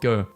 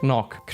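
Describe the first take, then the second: First: The name ends in a long vowel. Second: The name has throaty consonant sounds. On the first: The speaker calls it wrong. "American people pronounce it go" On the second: The speaker calls it right. "Vincent van Gogh is Dutch, so his name is actually pronounced"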